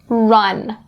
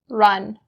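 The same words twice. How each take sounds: First: The R is made with lips pushed out. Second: The R is made with relaxed lips. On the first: "stick your lips out and up, like I'm going to do" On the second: "I can say it like run"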